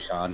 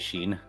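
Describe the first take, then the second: First: The vowel is an open 'aw' sound. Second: The vowel is a long 'ee' sound. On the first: The speaker calls it right. "actually Sean" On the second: The speaker calls it wrong. "people will say Sheen"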